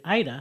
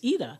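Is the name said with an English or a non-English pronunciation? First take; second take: English; non-English. First: The name has an English-style pronunciation. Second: The name has a non-English pronunciation. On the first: The speaker calls it wrong. "in English they'll say Ida" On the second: The speaker calls it right. "it's not Ida, it's Ida"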